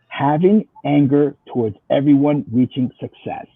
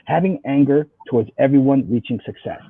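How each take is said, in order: First: It is said slowly. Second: It is said at normal speed.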